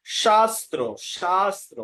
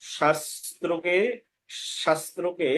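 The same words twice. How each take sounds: First: শাস্ত্র with long loud aa, "shaastra"; correct pronunciation. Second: শাস্ত্রকে with short first vowel, "shastro-ke"; everyday pronunciation. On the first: Teacher recaps for learners, correct pronunciation. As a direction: punch and hold the first vowel of শাস্ত্র. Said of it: "সেটা বলতে হয়". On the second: Teacher names the word to correct, everyday pronunciation. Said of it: "না বলে সেটা বলতে হয়". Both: Shown as a demonstration.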